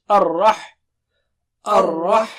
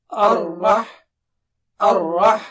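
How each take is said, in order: Both takes have the same delivery.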